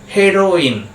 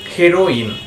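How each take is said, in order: First: The first vowel sounds like 'eh'. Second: The first vowel sounds like 'eh'.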